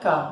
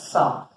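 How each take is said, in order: First: The syllable begins with a K sound. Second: The syllable begins with an S sound. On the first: The speaker calls it right. "ele é K" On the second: The speaker calls it wrong. "não é Sá"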